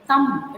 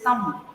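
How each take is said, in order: First: "thumb" said with the b sounded, slowly; wrong pronunciation. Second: "thumb" said as tum, the b silent. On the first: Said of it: "it is not thumb". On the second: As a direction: drop the b at the end of "thumb". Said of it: "The B should be silent". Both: Shown as a demonstration.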